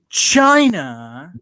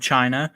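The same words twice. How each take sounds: First: It is said in an imitated, exaggerated accent. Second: It is said in the speaker's ordinary accent.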